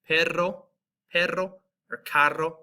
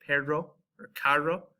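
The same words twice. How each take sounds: First: "perro" and "carro" with a strongly rolled trilled R. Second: "perro or carro" with an English R, no trill; American accent. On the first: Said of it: "This is gonna have that rolled R". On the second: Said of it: "pronounce it just like we do here in the United States". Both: Shown as a demonstration.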